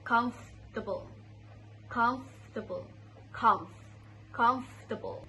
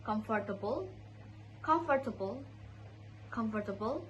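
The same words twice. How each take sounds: First: "comfortable" squeezed to "kumf-tuh-bul"; correct comfortable. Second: "comfortable" with the "for" left in; four-syllable wrong version of "comfortable"; mispronounced comfortable. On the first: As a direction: say "comfortable" without the "or". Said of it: "but it should be". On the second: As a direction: say "comfortable" as "com-for-ta-ble". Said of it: "So it's not". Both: Shown as a demonstration.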